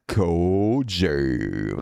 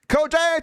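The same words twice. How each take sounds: First: The name is read in a sexy voice. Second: The name is read in a plain voice.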